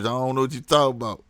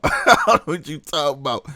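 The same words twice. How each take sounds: First: Said in the usual way. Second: Laughing dodge, louder; mock innocence, laughing; laughing through the line. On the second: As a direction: brush it off while cracking up. Dodging interview question, laughing.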